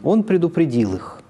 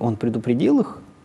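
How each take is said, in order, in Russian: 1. Тон ровно понижается, как в утверждении. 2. Тон резко повышается, как в вопросе. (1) "ИК-1 … в одном случае перед нами утверждение" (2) "ИК-3 … в другом случае перед нами вопрос"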